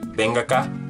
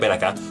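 First: The n of 'ven' sounds like ng. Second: The n of 'ven' is a plain n. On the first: "It's like bang, bang acá" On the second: "Or you can say ben acá"

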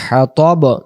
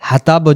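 First: No vowel is heard between the t and b. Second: A vowel is heard between the t and b. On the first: The speaker calls it right. "উচ্চারণ করব হাম্মালাতাল হাতব" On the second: The speaker calls it wrong. "হাতাব যদি পড়ি তো অক্ষরটা এখানে ভুল হবে"

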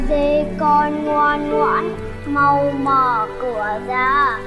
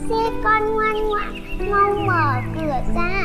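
First: The voice is deep, hoarse and gruff. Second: The voice is warm, tender and gentle. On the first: The speaker is not the mother. "giọng ồm ồm" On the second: The real mother is speaking. "cất giọng dịu dàng"

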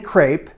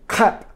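First: It is said with an American pronunciation. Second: It is said with a French pronunciation. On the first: The speaker calls it wrong. "It's American pronunciation" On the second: The speaker calls it right. "So I'm working on my crêpe"

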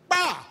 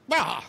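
First: It sounds loud and frustrated. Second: It mocks someone acting stupid.

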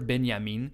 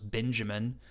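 First: The name is pronounced the German way. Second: The name is pronounced the English way. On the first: This is how scholars say it. "the way everyone in at least the academic circles I walk in pronounce it" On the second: This is how a newcomer would say it. "I thought it was Benjamin, especially because I don't speak German"

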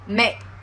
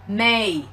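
First: The final k is held without release. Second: The final k is dropped entirely. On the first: The speaker calls it right. "không bật hơi xuống thôi" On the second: The speaker calls it wrong. "Nếu như mà không có âm ca thì các bạn sẽ đọc là may, sai hoàn toàn nhá"

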